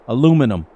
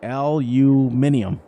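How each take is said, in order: First: The word is said with four syllables. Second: The word is said with five syllables. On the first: This is the speaker's own usual form. "That's how I pronounce it" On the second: This is the form other people use. "you guys say aluminium"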